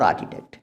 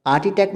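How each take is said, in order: First: "आर्किटेक्ट" with no breath after K; correct pronunciation. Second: Second "आर्किटेक्ट" with R and breathy KH; wrong pronunciation. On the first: Teacher giving the simple version, correctly pronounced. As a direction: say "आर्किटेक्ट", H silent. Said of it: "simple". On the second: Teacher showing the silent-H mistake, mispronounced. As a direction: sound the H as "aar-khi-tekt" in "आर्किटेक्ट". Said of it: "तो नहीं कह रहे ना". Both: Shown as a demonstration.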